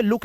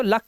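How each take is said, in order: First: लुक with a short "oo"; wrong pronunciation. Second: लक with a short "uh"; correct pronunciation. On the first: Teacher warning pupils, लुक misread with "oo". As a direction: say लुक rhyming with "book". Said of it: "लुक नहीं पढ़ेंगे". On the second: Teacher showing the rule, लक with short "a". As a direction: say लक rhyming with "duck". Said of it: "तो लक पढ़ेंगे". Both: Shown as a demonstration.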